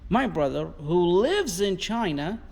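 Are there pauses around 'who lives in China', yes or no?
no. It is said without pauses around the clause.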